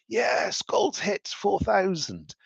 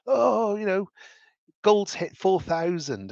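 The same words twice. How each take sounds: First: High-pitched, drawn-out celebration; mock cheering. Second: High, drawn-out wail without real sobs; mock crying. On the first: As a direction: imitate a jubilant investor, pitched way up. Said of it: "the guy cheering that price". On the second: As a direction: imitate a distraught investor's whine. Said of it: "crying his eyes out".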